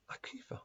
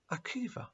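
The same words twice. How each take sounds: First: Whispered name, almost nothing; boy whispering his name; barely spoken. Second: Soft, half-voiced name; shy boy repeating his name; hardly spoken. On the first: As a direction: breathe the name out shyly. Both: A narrator's reading. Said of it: "The young boy hardly spoke".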